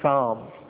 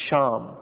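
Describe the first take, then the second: First: The name begins with an s sound. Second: The name begins with an sh sound. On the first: This is the original form of the name. "the seen became a sheen" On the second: This is the later form of the name. "the seen became a sheen"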